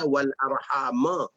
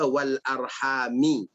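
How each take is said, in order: First: The last word ends with an 'a' vowel. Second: The last word ends with an 'i' vowel. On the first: This is the common reading. "Kita baca wal arhama" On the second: This is a minority reading. "Imam Hamzah baca wal arhami"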